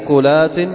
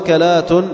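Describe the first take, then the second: First: U then no vowel after k, as uklat. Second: Both first vowels are a, as akalat. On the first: "وسكونها" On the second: "بفتح الهمزة والكاف"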